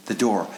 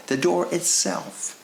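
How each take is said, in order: First: Said in the usual way. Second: "door" drawn out high and slow; 「door」を高くゆっくり強調して; stress on door. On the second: Shown as a demonstration. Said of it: "who the door".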